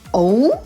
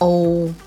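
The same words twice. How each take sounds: First: It is said like a question. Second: It is said flat and neutral. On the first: The speaker calls it wrong. "it's not a question" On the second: The speaker calls it right. "just neutral"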